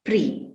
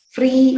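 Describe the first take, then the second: First: "pre" said for free, rhyming with tree; p replacing f. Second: Said in the usual way. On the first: Shown as a demonstration. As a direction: begin "pre" with a p instead of f. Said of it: "free is pronounced as pre". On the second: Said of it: "is pronounced as pre".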